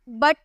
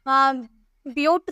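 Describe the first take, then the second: First: The vowel is a short uh sound. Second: The vowel is a long yoo sound. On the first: The speaker calls it right. "आप ऐसे बोलते हो ना।" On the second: The speaker calls it wrong. "लेकिन आप ब्यूट तो नहीं बोल रहे"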